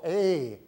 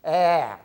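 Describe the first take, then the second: First: A said as "ay" in "day"; different vowel, ay. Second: A said loud as in "cat"; different vowel, ae. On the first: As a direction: give A its letter-name sound. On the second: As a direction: push out an open A, as in "apple". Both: Shown as a demonstration. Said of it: "you say a different vowel".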